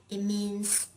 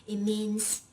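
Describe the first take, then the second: No difference in how they are said.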